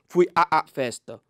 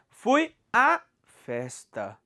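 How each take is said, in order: First: The vowel 'a' is said twice, stuttered. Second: The vowel 'a' is said once, merged. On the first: The speaker calls it wrong. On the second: The speaker calls it right.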